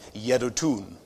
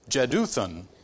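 First: The name begins with a Y sound. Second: The name begins with a J sound. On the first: "more traditionally it would have been Yedutun" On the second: "I think that was more of an Americanized pronunciation of the name"

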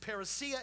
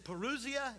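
First: It uses the Greek pronunciation. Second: It uses an everyday English pronunciation. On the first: The speaker calls it right. "It's actually parousia in the Greek" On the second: The speaker calls it wrong. "You may have heard me mispronounce it lots of times when I get happy"

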